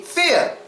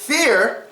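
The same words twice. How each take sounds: First: The final R is dropped. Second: The final R is pronounced.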